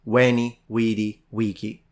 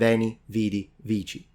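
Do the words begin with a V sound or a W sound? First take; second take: W sound; V sound. First: Each word begins with a W sound. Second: Each word begins with a V sound. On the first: This is how ancient Romans said it. "would pronounce their V's like a W" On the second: This is how most Romance languages say it now. "rather than"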